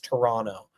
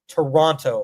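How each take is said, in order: First: The last t sound is dropped entirely. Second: The last t sound is clearly pronounced. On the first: The speaker calls it right. "The T is silent at the end" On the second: The speaker calls it wrong. "I'm pronouncing it incorrectly"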